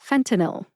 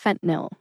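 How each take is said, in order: First: It is said with three syllables. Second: It is said with two syllables. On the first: "fentanyl has three syllables. They are fen-ta-nil" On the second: "I say fentanyl as a two-syllable drug name"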